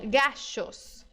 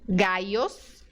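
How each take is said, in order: First: The middle consonant sounds like English sh. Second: The middle consonant sounds like English y. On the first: "é do S H do shopping" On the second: "com som de I mesmo do português"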